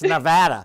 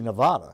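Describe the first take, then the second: First: The word has the local pronunciation. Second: The word has the outsider's pronunciation. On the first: The speaker calls it right. "but it's Nevada" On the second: The speaker calls it wrong. "I'm calling it Nevada because to me it sounds much cooler"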